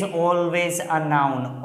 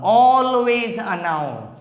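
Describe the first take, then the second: First: Said in the usual way. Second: "always" stretched long and higher; slow, emphatic repeat, drawing out "always"; stress on ALWAYS. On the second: Shown as a demonstration. Teacher drilling the possession rule into viewers, "always" drawn out emphatically.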